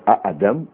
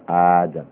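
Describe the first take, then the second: First: The first vowel is short, followed by a glottal stop. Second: The first vowel is drawn out long. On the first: "Instead of Adam" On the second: "the second A was made into an elongated vowel"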